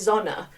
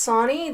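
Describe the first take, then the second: First: The name is said with a German pronunciation. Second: The name is said without a German pronunciation. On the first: It follows the family line's older pronunciation. "If it's more of a German pronunciation" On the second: It follows a relative's own pronunciation. "that's how he pronounced his name"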